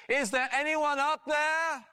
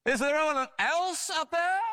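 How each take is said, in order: First: High, slow, drawn-out call. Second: Shouted again. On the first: Stranded man on the cliff looking up, calling out high. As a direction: call upward to someone far above. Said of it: "he called up". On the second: Doubting man on the branch shouting for another rescuer, high-pitched. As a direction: shout upward, leaning on "else". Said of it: "the man shouted again". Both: Retold or imitated.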